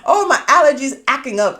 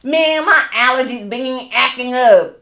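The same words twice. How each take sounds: First: Light mock of husband complaining; a hint of husband's whiny excuse; imitating husband. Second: Slow, drawn-out southern accent mocking husband. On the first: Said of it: "That's how he was saying it". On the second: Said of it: "with the southern accent".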